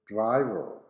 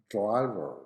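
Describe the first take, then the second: No difference in how they are said.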